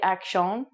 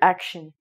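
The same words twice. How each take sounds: First: It is said with a French-Canadian accent. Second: It is said with a standard English accent. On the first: The speaker calls it wrong. "but that would be a French-Canadian accent" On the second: The speaker calls it right. "So I would say this word action"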